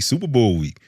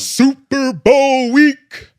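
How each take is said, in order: First: It is said with little enthusiasm. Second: It is said with lots of enthusiasm.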